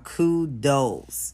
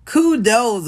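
First: Said in the usual way. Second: Kudos, called out higher and louder; emphatic kudos. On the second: Real, not acted. Congratulating [name], kudos higher and louder. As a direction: cheer kudos out.

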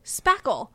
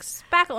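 First: Said in the usual way. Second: "Spackle" pitched high and insistent; emphatic repeat. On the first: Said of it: "I had to say it". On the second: Retold or imitated. Repeating it to a confused handyman, emphatic. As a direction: say "Spackle" higher, as a repeated attempt. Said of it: "like, five times".

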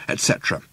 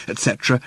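First: Whispered. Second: Said in the usual way. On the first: A narrator's reading. Repeated list, whispered off.

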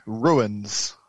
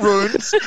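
First: Low "ruins" in two syllables, "ROO-inz". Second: "runes" as one syllable, "roonz", raised pitch. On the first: Australian answers the spelling, "ruins" in two syllables. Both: Shown as a demonstration. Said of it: "No, not runes".

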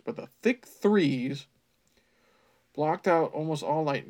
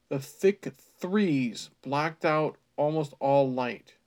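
First: Slow, louder "threes" with th; typo mockingly repeated. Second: Slow "thick threes" with th; deliberate typo read. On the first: Reader mocking the author's "threes" typo, slow. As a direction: hammer the th of "threes". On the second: Reader relishing the typo "threes", slow. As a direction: drag out "threes" with a th. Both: Shown as a demonstration. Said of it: "he meant to say trees".

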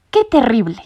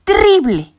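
First: Exclaiming. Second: "¡Terrible!" higher and louder, a dramatic cry; exclaiming. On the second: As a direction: throw up his paws at "¡Terrible!". ("¡Terrible!" exclamado más agudo y fuerte) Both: A narrator's reading. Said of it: "exclamó Sabelotodo".

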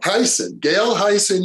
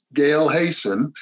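First: "Hyson" with first syllable like "high"; careful, higher-pitched "Hyson", starting like "high"; corrected name. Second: "Hayson" with first syllable like "hay"; "Hayson" mispronounced, rhyming its start with "say"; mispronounced name. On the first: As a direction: say "Hyson" with a long I, as in "eye". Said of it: "it's pronounced Hyson". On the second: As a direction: say "Hayson" with an AY vowel, as in "day". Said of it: "I've been mispronouncing your name". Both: Real, not acted.

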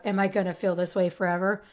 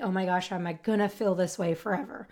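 First: Said in the usual way. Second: Anxious inner thought. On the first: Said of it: "that thought of". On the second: Retold or imitated. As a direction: murmur it like a fearful private thought. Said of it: "I used to think".

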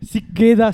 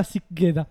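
First: Loud hype chant; hyped shout. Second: Said in the usual way. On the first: Pretend. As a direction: shout it like a crew tag. Hype chant between friends.

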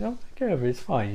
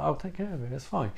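First: A light, quiet mobster reassurance; lightly imitating a soothing Goodfellas gangster; Jimmy from Goodfellas. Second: Said in the usual way. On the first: Dracula calming Bob like Jimmy in Goodfellas, light mobster voice. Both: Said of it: "He's fucking Jimmy in Goodfellas".

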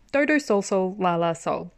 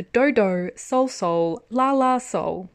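First: Said in the usual way. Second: Slow, careful reading of the title; said carefully. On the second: Shown as a demonstration. Reading the drama title carefully for listeners, slow. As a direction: sound out Dodo Sol Sol La La Sol slowly. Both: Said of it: "so I can say it properly".

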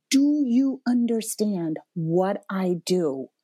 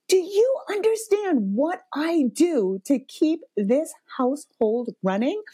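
First: Slow, measured, earnest question; retold calmer appeal. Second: Retold parental rage. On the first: Mom coming back to her son after crying, measured. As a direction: ask it slowly, letting each word land. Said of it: "in a quiet moment". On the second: Mom confronting her son about the household, enraged. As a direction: spell it out in exasperation, pitched up. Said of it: "like, parental rage".

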